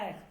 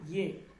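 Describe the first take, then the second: First: The word begins with a plain vowel sound. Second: The word begins with a y sound. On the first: The speaker calls it wrong. "আপনি যদি বলেন এক, ভুল।" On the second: The speaker calls it right. "উচ্চারণটা কি হবে? ইয়েক।"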